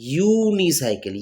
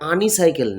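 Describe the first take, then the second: First: The word begins with a 'you' sound. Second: The word begins with an 'ah' vowel sound. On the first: The speaker calls it right. "কি আসছে ইউনিসাইকেল" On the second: The speaker calls it wrong. "উচ্চারণটা আনিসাইকেল না"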